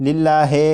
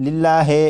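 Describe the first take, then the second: The two takes are said the same way.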